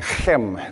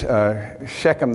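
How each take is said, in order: First: It is said with a guttural throat sound. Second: It is said without a guttural sound.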